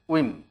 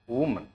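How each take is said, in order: First: The first syllable sounds like 'wi'. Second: The first syllable sounds like 'wo'. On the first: The speaker calls it right. "Rather, that is women" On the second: The speaker calls it wrong. "It's not woman. This is wrong to say like this"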